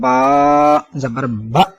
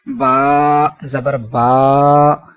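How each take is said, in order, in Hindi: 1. अंतिम स्वर को झटके के साथ काटा जाता है। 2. अंतिम स्वर को लंबा खींचा जाता है। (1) "ये झटका देना कहलाएगा।" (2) "ये लंबा करना कहलाएगा।"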